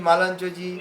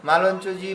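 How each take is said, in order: The two takes are said the same way.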